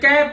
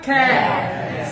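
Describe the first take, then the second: First: The first k sound has no puff of air. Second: The first k sound has a puff of air. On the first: The speaker calls it wrong. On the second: The speaker calls it right.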